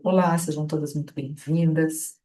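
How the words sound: It is said in a low, flat voice. The words do not match the feeling conveyed. The speaker calls it wrong. "a minha expressão e o meu tom de voz baixo não estão correspondendo às palavras"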